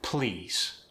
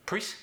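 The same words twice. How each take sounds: First: Said in the usual way. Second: High, short "please" like "preese", Korean accent. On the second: Shown as a demonstration. Coach demonstrating L going to R, Korean accent. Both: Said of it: "that goes to the R".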